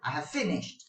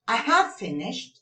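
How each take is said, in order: First: The stress is on "finished". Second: The stress is on "have".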